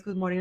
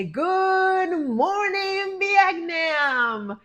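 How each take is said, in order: First: Said in the usual way. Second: High, loud, hugely stretched-out radio DJ greeting; Robin Williams impression. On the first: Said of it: "she says". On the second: Answering her sister's morning greeting, loud drawn-out DJ call. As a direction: belt it slowly like the famous movie DJ. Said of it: "Remember that movie with, uh, Robin Williams?".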